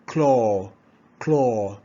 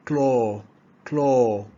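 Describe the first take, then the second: No difference in how they are said.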